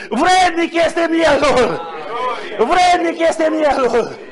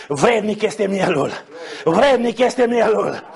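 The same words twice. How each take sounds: First: Raised, slow, long-held cry of praise; exultant proclamation. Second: Slow, restrained quote of a hymn line; measured recital. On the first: Real, not acted. Preacher inviting all to sing the victors' song, exultant proclamation. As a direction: proclaim it slowly, stretching the words. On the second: Retold or imitated. Preacher quoting the song they began to sing, measured recital. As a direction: recite the praise slowly and evenly.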